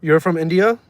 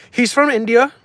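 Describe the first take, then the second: First: Said in the usual way. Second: Much higher, louder teasing repeat; mock high squeaky echo. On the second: Streamer mocking chat's question, high and loud. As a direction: squeak it back at chat like a mocking parrot.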